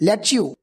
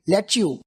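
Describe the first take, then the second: First: The two words are blended into one reduced form. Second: The two words are blended into one reduced form.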